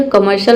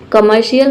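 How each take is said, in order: First: कमर्शियल said as ka-mar-shal, the wrong way; wrong pronunciation. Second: कमर्शियल said as ka-mar-si-yal; correct pronunciation. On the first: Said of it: "कमर्शियल नहीं होता है". (कमर्शियल को गलत, शल के साथ बोलिए) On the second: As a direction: say कमर्शियल with siyal ending. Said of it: "इसे हम पढ़ेंगे कमर्शियल". (कमर्शियल को सही, सियल के साथ बोलिए) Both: Shown as a demonstration.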